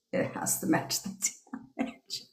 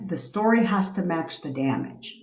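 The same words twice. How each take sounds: First: Whispered aside. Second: Said in the usual way. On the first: Real, not acted. Repeats rule, then whispers it.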